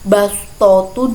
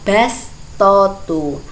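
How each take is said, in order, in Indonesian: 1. Bunyi s itu berat dan emfatik. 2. Bunyi s itu ringan dan biasa. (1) "huruf sodnya" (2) "dibaca sin"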